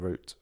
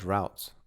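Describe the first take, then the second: First: The vowel sounds like the one in 'boot'. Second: The vowel sounds like the one in 'out'.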